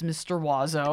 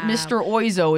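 First: The name begins with a 'wa' sound. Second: The name begins with an 'oy' sound. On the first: The speaker calls it right. "It's Mr. Wazzo" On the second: The speaker calls it wrong. "Not Mr. Oizo, as people might think"

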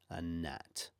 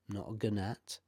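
First: The G at the start is silent. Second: The G at the start is sounded. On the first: The speaker calls it right. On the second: The speaker calls it wrong.

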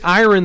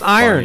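First: The word is said to rhyme with Byron. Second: The word is said not rhyming with Byron. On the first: The speaker calls it wrong. "I used to say iron the whole time" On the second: The speaker calls it right. "Turns out it's iron"

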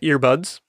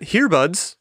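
First: The word starts with a vowel sound. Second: The word starts with an 'h' sound. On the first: The speaker calls it right. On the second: The speaker calls it wrong.

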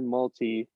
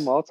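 First: The last syllable sounds like 'tee'. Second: The last syllable sounds like 'tie'.

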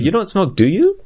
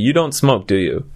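First: The voice rises at the end. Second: The voice falls at the end.

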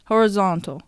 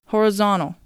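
First: The t after the n is pronounced. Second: The t after the n is dropped.

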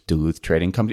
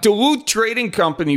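First: It is said in a flat, plain way. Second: It is said with folksy enthusiasm.

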